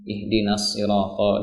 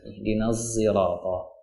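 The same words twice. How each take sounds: First: The s in sirata is a plain s. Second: The s in sirata blends toward a z. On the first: "dibaca dengan sin" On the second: "mencampur adukan ucapan huruf antara shad dengan zai"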